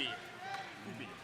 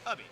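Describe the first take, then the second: First: The first vowel is a rounded 'ü' sound. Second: The first vowel is a short 'uh' sound. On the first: "if there's an umlaut, you'd say ubi" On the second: "It's a short U"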